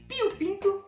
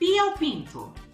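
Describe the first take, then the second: First: It is said at a fast pace. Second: It is said slowly and deliberately. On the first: "Mais rápido?" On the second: "Eu vou falar então devagarzinho"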